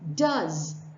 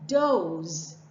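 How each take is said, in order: First: The vowel is 'uh', rhyming with buzz. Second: The vowel is 'oh', as in rose. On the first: It is the verb form of do. "One has a a sound and rhymes with buzz" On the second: It names female deer. "the other has o"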